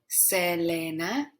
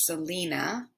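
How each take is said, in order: First: The name is said with Spanish vowels. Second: The name is said with English vowels. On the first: The speaker calls it right. "E is pronounced E and A is pronounced A in Spanish" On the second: The speaker calls it wrong. "We would say that in English"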